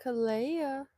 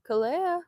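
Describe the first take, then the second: First: Said in the usual way. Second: Higher call with a rising end; sing-song call to the dog. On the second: Real, not acted. Calling the dog again.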